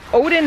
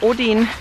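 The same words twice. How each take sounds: First: The name is pronounced the English way. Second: The name is pronounced the German way. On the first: "Odin is the English version" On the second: "Odin is just the German version"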